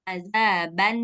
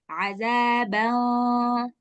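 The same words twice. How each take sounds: First: The final n sound is fully clear. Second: The final n sound is faint and hidden. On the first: The speaker calls it wrong. "Jadi bacanya nggak boleh azaban, azaban sa'ada, nggak boleh" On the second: The speaker calls it right. "Suara nunnya itu harus samar, nggak boleh jelas"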